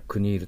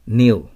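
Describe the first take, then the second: First: A k sound is pronounced before the n. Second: The word begins directly with the n sound. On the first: The speaker calls it wrong. "クニールと呼んではいけません" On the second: The speaker calls it right. "K とN が一緒だから"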